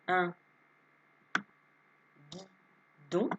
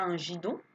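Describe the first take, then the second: First: The word starts with a hard g sound. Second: The word starts with a soft j sound. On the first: The speaker calls it right. "ça ne fait pas j, ça fait g" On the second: The speaker calls it wrong. "Et non pas un gidon"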